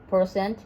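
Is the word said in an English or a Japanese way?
English. It is said with English pronunciation. "the English is"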